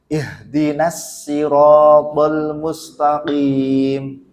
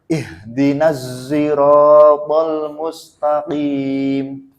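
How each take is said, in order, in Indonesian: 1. Sirat dimulai dengan bunyi s biasa. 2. Sirat dimulai dengan bunyi seperti z. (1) "Imam Qombul bacanya pakai sin" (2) "Kalau Imam Hamzah pakai Zayyan"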